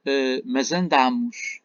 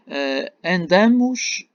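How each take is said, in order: First: "andamos" with a closed nasal a, ân-DÂ-mos, slowly; present tense andamos. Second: "andamos" said with an open A, ân-DÁ-mos, slowly; past tense andamos. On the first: Teacher contrasting the present tense form, closed vowel. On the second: Teacher contrasting the past tense form, open vowel. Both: Shown as a demonstration. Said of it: "para eu distinguir o pretérito perfeito".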